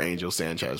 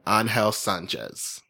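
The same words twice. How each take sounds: First: The name is said with an English accent. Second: The name is said with a Spanish accent. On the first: "for y'all who don't understand" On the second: "Puerto Rican, Spanish accent I'm getting right now"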